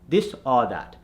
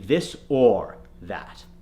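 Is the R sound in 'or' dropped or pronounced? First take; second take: dropped; pronounced. First: The R in 'or' is dropped. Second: The R in 'or' is pronounced. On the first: The speaker calls it wrong. "the Indian accent will say ah, this or that" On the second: The speaker calls it right. "we need it to be this or that"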